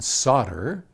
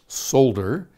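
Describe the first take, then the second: First: The L sound is left out of the word. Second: The L sound is pronounced in the word. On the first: This is the American pronunciation. "solder in American ... is a silent L" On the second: This is the British pronunciation. "in Britain, solder, the L is said"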